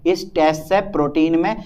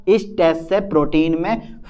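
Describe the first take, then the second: No difference in how they are said.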